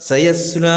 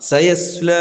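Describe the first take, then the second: The two takes are said the same way.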